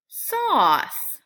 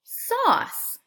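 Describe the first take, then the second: First: Sauce said louder with a full aw; model word. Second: Sauce whispered, the aw stretched; model word. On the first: Teacher contrasting raw and sauce aloud. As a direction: say sauce firmly, leaning on aw. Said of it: "Listen for that same sound". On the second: Teacher saying sauce with children. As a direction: breathe out sauce with an open aw. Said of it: "Say the word with me". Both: Shown as a demonstration.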